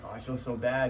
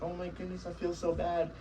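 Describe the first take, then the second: First: Lightly voiced guilty owner, only a touch higher; a hint of the owner who caves in. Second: Much higher, softer, mock-pitying whine; mock emotional owner. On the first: Trainer mimicking a guilty owner, barely acted. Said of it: "you go to her and you're like". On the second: Trainer mocking an owner pitying a crying puppy, high soft mock whine. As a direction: ham up the owner melting with guilt. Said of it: "you get all emotional and you're sad and you're like".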